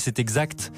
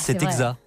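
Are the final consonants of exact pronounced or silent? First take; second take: pronounced; silent. First: The final consonants of exact are pronounced. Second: The final consonants of exact are silent. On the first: "Moi je dis c'est exact" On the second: "il y a des gens qui disent c'est exact"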